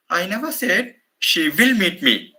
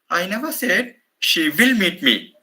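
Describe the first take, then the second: First: The word will carries the main stress. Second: The word will carries the main stress.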